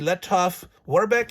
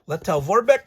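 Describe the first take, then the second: First: The name is said with German-style consonant sounds. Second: The name is said with English-style consonant sounds.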